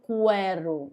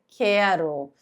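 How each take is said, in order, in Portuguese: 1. Um som de 'w' vem depois do som de k. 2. Nenhum som de 'w' vem depois do som de k. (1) "Eu não falo quero" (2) "eu falo quero"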